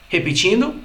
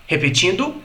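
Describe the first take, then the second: The two takes are said the same way.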